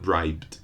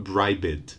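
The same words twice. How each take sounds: First: Bribed as a single syllable, brybd; no vowel before the final d in bribed; bribed ending straight in voiced bd; one syllable. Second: Bribed mispronounced as two syllables, bribe-id; bribed said wrongly as bribe-ed; wrong extra syllable. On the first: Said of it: "no extra syllable, not bribed, but bribed". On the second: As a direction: add an extra vowel in bribed: BRY-bid. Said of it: "No extra vowel, no extra syllable, not". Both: Shown as a demonstration.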